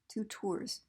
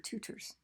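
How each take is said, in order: First: Both syllables get the same equal stress. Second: The first syllable is stressed more than the second. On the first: It sounds like two trips. The speaker calls it wrong. "If you give syllables equal stress, you might be misunderstood" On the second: It names people who teach. The speaker calls it right. "So you have to say tutors"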